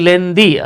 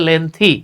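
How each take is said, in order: First: The middle consonant sounds like a d. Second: The middle consonant sounds like a th. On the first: The speaker calls it wrong. "আমরা বলি লেন্দি, আসলে লেন্দি না" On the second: The speaker calls it right. "এটা হচ্ছে লেন্থি"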